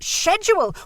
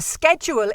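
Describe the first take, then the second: First: The word is said with the British pronunciation. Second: The word is said with a non-British pronunciation. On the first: The speaker calls it right. "This is British Rail. It's schedule" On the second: The speaker calls it wrong. "I hear people mispronouncing words"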